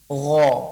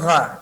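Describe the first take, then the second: First: The gh sound is thick, with rounded lips. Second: The gh sound is thin, with spread lips. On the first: The speaker calls it right. "tapi gha" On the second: The speaker calls it wrong. "bukan gha"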